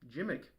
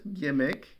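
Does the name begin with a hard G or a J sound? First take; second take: J sound; hard G. First: The name begins with a J sound. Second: The name begins with a hard G sound.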